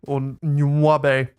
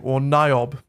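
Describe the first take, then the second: First: Niobe said as noo-AH-bay, three syllables; second pronunciation. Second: Niobe said as NYE-ob, two syllables; first pronunciation. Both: Shown as a demonstration.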